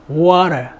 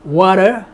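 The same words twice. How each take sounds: No difference in how they are said.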